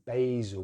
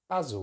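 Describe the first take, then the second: First: The first vowel is a gliding diphthong. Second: The first vowel is a short open vowel. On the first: "They use the A diphthong, so it's basil" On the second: "we're going to use a short vowel sound, the same vowel sound we find in the word cat"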